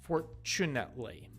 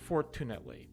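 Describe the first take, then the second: First: The middle t is a ch sound. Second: The middle t is a hard t sound. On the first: The speaker calls it right. "the T U part is pronounced chu" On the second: The speaker calls it wrong. "hard T sound. ... That's a bad pronunciation"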